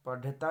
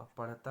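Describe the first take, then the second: First: पढ़ता louder, with hard unflapped ढ; wrong pronunciation. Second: पढ़ता with flapped ढ़; correct pronunciation. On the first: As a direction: say पढ़ता as "padhata", hard stop. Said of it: "नहीं होगा". (पढ़ता में बिना बिंदी का ढ बोलें) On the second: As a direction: say पढ़ता as "parhta", tongue flapped. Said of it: "होगा". (पढ़ता में बिंदी वाला ढ़ बोलें) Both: Shown as a demonstration.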